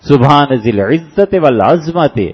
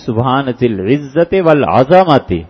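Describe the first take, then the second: First: The last word has no vowel after its z. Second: The last word has an a vowel after z. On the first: It praises the Lord as possessor of bone. The speaker calls it wrong. "یہ جتنے پڑھتے ہیں یہ غلط پڑھتے ہیں" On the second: It praises the Lord as possessor of greatness. The speaker calls it right. "اس کو پڑھنے کا طریقہ یہ ہے"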